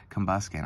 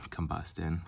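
First: "Combuskin" with K in the last syllable; corrected name. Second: "Combustin" with T in the last syllable; mispronounced name. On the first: Card opener fixing a favorite's name, "Combuskin" with K. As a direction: land on "Combuskin", ending in -skin. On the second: Card opener fumbling a favorite's name, "Combustin" with T. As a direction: stumble into "Combustin", ending in -tin. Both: Real, not acted. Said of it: "I did him dirty".

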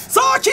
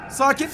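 First: High, loud cry of "Sakin"; urgent, much higher shout; panicked shout. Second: Said in the usual way. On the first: Real, not acted. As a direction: yelp it as control slips. Calm word turns to panic.

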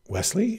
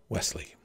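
First: High, rising WESLEY; questioning. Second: Soft, falling statement of a name; quiet answer. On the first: Heroine feigns not knowing her caller, high questioning. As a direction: say WESLEY as a puzzled question, pitched up. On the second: Farm boy names himself at the door, quietly. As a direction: answer softly, without asking. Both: Acted.

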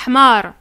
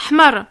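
First: Hmar with the A stretched too long. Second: Hmar said very fast, A barely heard; quick hmar. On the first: Teacher showing the wrong long hmar that means donkey. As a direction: drag out the A in hmar. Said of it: "prolonges trop le A". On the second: Teacher showing the correct short hmar for red. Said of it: "Tu vas très vite". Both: Shown as a demonstration.

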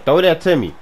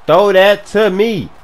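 First: Raised-voice demand; insistent call. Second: Loud, high, drawn-out demand; emphatic shout. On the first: Open receiver asking for the pass, insistent call. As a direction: call out for the ball. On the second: Open receiver demanding the pass, emphatic shout. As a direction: shout it slowly so he listens. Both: Real, not acted.

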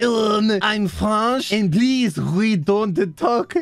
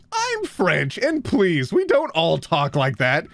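First: Exaggerated French accent, very drawn out. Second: Said in the usual way. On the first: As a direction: put on a thick, slow mock French accent. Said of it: "impossible not to read this with a French accent". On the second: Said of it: "not to read this with a French accent".

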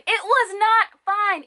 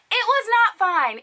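First: High, slow, emphatic denial; exasperated and high, dragging each word; indignant, drawn out. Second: High-pitched emphatic denial; exasperated, high-pitched correction; indignant. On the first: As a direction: stretch the words out in indignant protest. Repeats the verdict, drawn out. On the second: Indignant verdict on botched wig. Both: Real, not acted.

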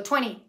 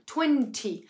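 First: Twenty sin T, tweni a la americana; American twenty. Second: Twenty con la T bien marcada, británica; British twenty. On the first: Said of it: "pero realmente yo digo twenty". (twenty americano, tweni) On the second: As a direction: di twenty pronunciando la T clara. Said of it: "pronuncian la T con T". (twenty británico con T nítida) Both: Shown as a demonstration.

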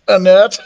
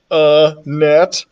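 First: "A net" joined up like the name Annette, higher; louder, joined-up "A net", landing the joke; run-together pun. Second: "A net" broken into two separate words; split-up pun. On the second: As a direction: say "A", then a distinct "net". Spelling out the pun on Annette. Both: A narrator's reading.

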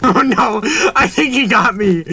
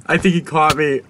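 First: Giggling through the words, high; laughing in disbelief. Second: Said in the usual way. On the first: Real, not acted. Laughing as he's caught.

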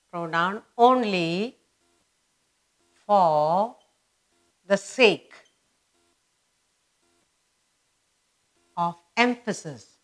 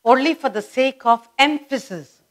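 First: Drawn-out dictation with long gaps; feed it out slowly for writing down; piecemeal dictation. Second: Said in the usual way. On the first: Shown as a demonstration.

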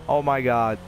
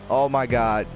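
No difference in how they are said.

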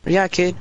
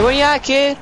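First: Said in the usual way. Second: Taunting call-out. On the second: Shown as a demonstration. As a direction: call him out like a bully.

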